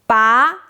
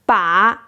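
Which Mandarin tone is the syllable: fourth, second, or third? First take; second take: second; third. First: The syllable is said with a rising tone. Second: The syllable is said with a dipping tone. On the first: It means pull. "Second tone, 把 means pull" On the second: It means hold or grip. "Third tone, 把 means hold or grip"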